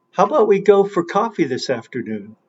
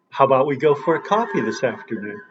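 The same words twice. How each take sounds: First: Quick, run-together question; fast demo sentence. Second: "go", "coffee" and "afternoon" hit harder, rest rushed; stress on go, coffee, afternoon. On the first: Teacher to students, fast stressed demo. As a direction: rattle it off to show stress. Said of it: "can you understand the following". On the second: Teacher showing students which words carry stress. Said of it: "Go, coffee, this afternoon". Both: Shown as a demonstration.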